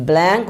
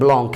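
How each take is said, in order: First: ব্ল্যাঙ্ক said like English blank, with a flat a sound; ব্ল্যাঙ্ক with the English blank vowel; wrong pronunciation. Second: ব্লঙ্ক said blong, with a rounded o like French Blanc; ব্লঙ্ক spoken as blong, not blank; correct pronunciation. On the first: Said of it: "ব্ল্যাঙ্ক উচ্চারণ হবে না". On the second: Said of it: "উচ্চারণ হবে ব্লঙ্ক". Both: Shown as a demonstration.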